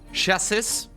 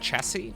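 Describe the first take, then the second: First: It ends with an S sound. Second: It ends without an S sound.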